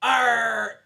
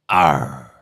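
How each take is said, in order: First: High, loud pirate cry of Arr!; pirate shout. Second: Low, loud pirate growl on Arr. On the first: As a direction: bellow Arr! like a pirate captain. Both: Pretend. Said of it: "do me pirate accent".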